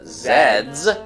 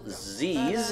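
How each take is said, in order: First: The letter name is said the Canadian way. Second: The letter name is said the non-Canadian way.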